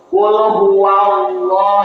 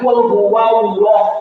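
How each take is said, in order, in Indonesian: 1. L dibuat dengan ujung lidah. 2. L dibuat dengan kedua bibir, seperti w.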